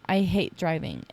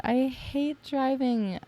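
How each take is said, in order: First: Said in the usual way. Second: "I hate driving" sung out high and slow, touched. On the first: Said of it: "But I told my friend once". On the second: Retold or imitated. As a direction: let "I hate driving" float up, moved and grateful. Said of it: "And I'm like".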